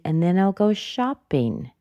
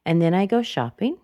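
First: "shopping" dropping sharply from high; emphatic downturn on "shopping"; falling intonation. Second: Unfinished upturn on "shopping"; rising intonation. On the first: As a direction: start "shopping" up high and let it fall. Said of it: "It goes down rather sharply". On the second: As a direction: end lifting on "shopping". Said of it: "But she chose to go down". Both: Shown as a demonstration.

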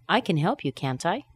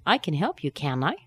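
First: Can't I with the T kept; T in tag. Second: Can I said with no T, like can; T dropped in tag. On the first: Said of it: "I could also say". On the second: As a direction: let the T of can't vanish. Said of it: "we're using the negative tag, can I, but the T's missing". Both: Shown as a demonstration.

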